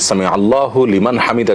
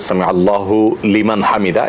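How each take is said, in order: First: The words run together at normal speaking speed. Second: The words are said separately, each kept apart. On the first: This is how it comes out in ordinary speech. "বলার গতিতে ... যদি একসাথেও হয়ে যায়" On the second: This is the actual pronunciation. "এভাবে, অ্যাকচুয়াল উচ্চারণটা সেটাই"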